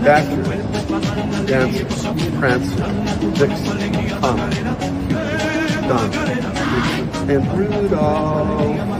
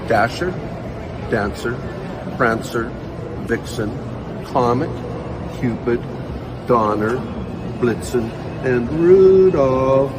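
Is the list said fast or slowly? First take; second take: fast; slowly. First: The names are said at a faster pace. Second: The names are said at a slower pace.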